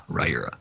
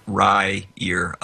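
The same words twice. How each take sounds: First: "Ryura" said short as RY-ruh, lower, falling; quick lower confirming take of "Ryura" as RY-ruh; name pronounced, clipped. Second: "Ryura" said slowly as RY-ur-uh, drawn out; name pronounced carefully. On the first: Author repeating his name for listeners, "Ryura" clipped as RY-ruh, falling. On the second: Author teaching listeners his name, "Ryura" drawn out as RY-ur-uh. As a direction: spell out "Ryura" in sound, RY-ur-uh, unhurried. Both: Shown as a demonstration. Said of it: "that's how you pronounce it".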